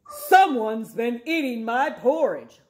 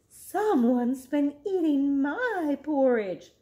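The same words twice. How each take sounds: First: It is said in a loud, deep roar. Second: It is said in a tearful, crying voice.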